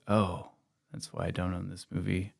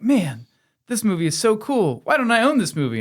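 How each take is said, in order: First: Low, soft, deflated realisation; quietly disenchanted, lower and softer; acted letdown. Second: High-pitched, awed fan; rising excitement, pitched way up; acted enthusiasm. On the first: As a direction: drop your voice as it sinks in. Acts out viewer's sudden letdown. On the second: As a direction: gush as if discovering a favourite. Acts out excited first-time viewer.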